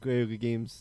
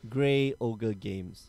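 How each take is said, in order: First: The name is slurred, with the middle word swallowed. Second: The name is said clearly, every word distinct. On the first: The speaker calls it wrong. "I go Grey Games" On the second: The speaker calls it right. "got to enunciate it"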